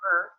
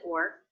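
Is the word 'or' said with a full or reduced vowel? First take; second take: reduced; full. First: The vowel is reduced to a quick schwa. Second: The vowel is full and unreduced. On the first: "That can be reduced to er" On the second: "but in this case I didn't. I said or"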